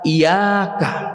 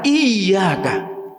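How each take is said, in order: First: The middle 'y' sound is short, not held. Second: The middle 'y' sound is doubled and held. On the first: The meaning changes far from the intended one. The speaker calls it wrong. "kita salah mengucapkannya... dihilangkan tasdidnya" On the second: Only You alone, O Allah. The speaker calls it right. "ada tasdid. Jadi dibacanya di, agak ditahan"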